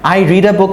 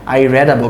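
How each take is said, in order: First: The verb has a long 'ee' vowel. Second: The verb has a short 'e' vowel. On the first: The reading happens regularly now. "I রিড a বুক মানে কি? আমি বই পড়ি" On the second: The reading happened in the past. "আমি একটা বই পড়েছি"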